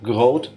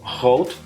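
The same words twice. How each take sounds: First: The word has a Belgian-style G sound. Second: The word has a Dutch-style G sound. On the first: "groot would be Belgian" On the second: "groot would be Dutch"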